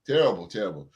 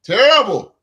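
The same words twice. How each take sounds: First: Said in the usual way. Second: A sudden loud, high "Terrible."; retold outburst. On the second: Retelling his reaction to the article, loud and high. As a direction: burst out "Terrible." in disgust. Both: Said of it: "And I said".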